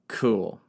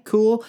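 First: Said in the usual way. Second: High, bright-snapping cool, as if asking for buy-in; upbeat cool. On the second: Acted. Nobles sealing the deal, perky high Cool. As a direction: pitch Cool up and punchy. Seven agree on rules.

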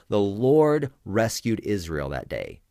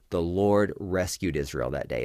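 First: Slow, louder, leaning on Lord; dramatic proclamation. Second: Said in the usual way. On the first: Shown as a demonstration. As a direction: proclaim the Lord rescued Israel that day with weight. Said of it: "Pause, and then I repeat". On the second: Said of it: "every time I say that".

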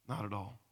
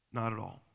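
The two takes are said the same way.

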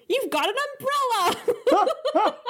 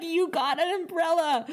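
First: High, slow and laughing, stretching umbrella; gleeful. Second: Higher, laughing replay of the line; gleeful. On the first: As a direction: quote her with giddy glee, giggling through it. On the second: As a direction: giggle it out with glee again. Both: Retold or imitated. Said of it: "the glee in which she said that".

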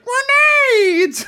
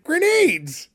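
First: Very high, loud mimicking shriek; hammed-up high-pitched yell; exaggerated Fester imitation. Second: High-pitched comic character cry; high excited character voice; Fester impression. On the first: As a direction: mimic it as a piercing, drawn-out cartoon shout. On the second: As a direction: announce it in a high, gleeful cartoonish voice. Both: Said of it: "You did a, a spot-on impression".

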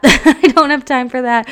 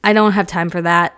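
First: Laughing it out, higher and louder. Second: Said in the usual way. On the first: Real, not acted. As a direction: say it through a laugh. Repeated line, second with laugh.

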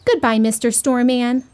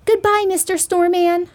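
First: Lightly voiced little boy; a hint of a little boy's goodbye. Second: Put-on higher-pitched little girl's goodbye. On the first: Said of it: "said the little boy". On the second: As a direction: say it high, like a little girl. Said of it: "said the little girl". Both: A narrator's reading.

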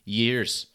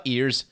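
First: Years said clearly with a y sound at the start; years, not ears; correction. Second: Ears said as plain ears, no y sound at the start; the word ears with no y; wrong word. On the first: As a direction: stress the y in years. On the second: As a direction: say ears, not years. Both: Shown as a demonstration. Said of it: "Not ears, years".

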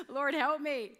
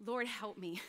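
First: Said in the usual way. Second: Hushed prayer for help; quiet prayer. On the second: Shown as a demonstration. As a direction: lower and softer, a desperate plea. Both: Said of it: "That was my prayer".

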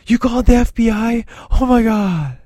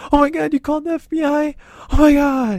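First: He hears the mom called the FBI and panics, high freak-out voice. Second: Squeaky panic, much higher and fast; really high freak-out. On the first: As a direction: panicky squeal, pitched way up. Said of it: "just like he does in". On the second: Teen hears his mom called the FBI, squeaking high in panic. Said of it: "when he talks really high". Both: Retold or imitated.

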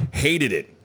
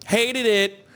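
First: Said in the usual way. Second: High, campy catchphrase delivery; hammed-up high comic voice; mock disdain. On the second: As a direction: repeat it as a high-pitched comic bit. Repeats it as a jokey reference.

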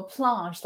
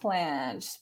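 First: Planche with a long "ah", like "plahnsh"; accented surname. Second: Said in the usual way. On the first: Shown as a demonstration. Host saying how she wants the name to go, accented pronunciation. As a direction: put an accent on Planche, rhyming it loosely with "blancmange". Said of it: "but I wanna go Planche". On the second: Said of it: "I say it Planche".

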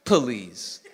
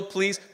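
First: Please stretched into puh-LEASE, low; two-syllable please. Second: Said in the usual way. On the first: Shown as a demonstration. Preacher showing how Gideon sounds, please split in two syllables. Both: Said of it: "that two syllable".

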